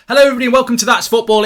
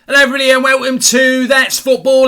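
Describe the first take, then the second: First: It is said in his normal accent. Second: It is said in a Cockney accent.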